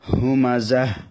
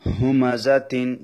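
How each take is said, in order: First: The word ends with a final h sound. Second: The word ends with a full t syllable. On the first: Reading stops at this word. "যখন ওয়াকফ করব ... তখন বলতে হবে হুমাজাহ" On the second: Reading continues without stopping here. "ওয়াকফ যখন করব না তখন বলতে হবে হুমাজাতিন"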